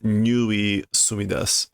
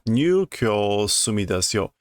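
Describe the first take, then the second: First: The first word sounds like 'nui'. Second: The first word sounds like 'nyukyo'. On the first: The speaker calls it wrong. "that is not the pronunciation" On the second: The speaker calls it right. "New Kyo. Yeah"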